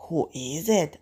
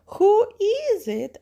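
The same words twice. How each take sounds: First: Wolf asking in a natural, unraised pitch. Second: High, loud, slow granny voice; grandmother. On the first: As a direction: ask it lightly voiced, without pitching up. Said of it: "asks the wolf". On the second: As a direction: call out high like a storybook granny. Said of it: "asks grandmother". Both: Acted.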